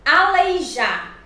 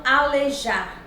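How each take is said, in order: First: "Aleijar" slowly, with the ei diphthong; correct pronunciation. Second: "alejar" slowly, bare e before j; wrong pronunciation. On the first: Teacher giving the proper form, slow "Aleijar" with ei. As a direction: sound the i in "Aleijar". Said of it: "a forma adequada e a forma inadequada". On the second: Teacher showing the improper form, "alejar" without the diphthong. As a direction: drop the i, saying "alejar". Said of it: "e não alejar". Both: Shown as a demonstration.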